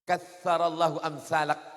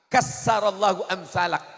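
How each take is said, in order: First: The first word has a soft 'th' sound. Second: The first word has a plain 's' sound. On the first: May God multiply people like you. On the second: May God destroy people like you.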